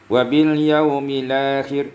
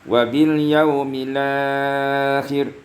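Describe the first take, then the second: First: The long vowel is held for two counts. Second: The long vowel is held for four counts. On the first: "dua harakat" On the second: "empat harakat"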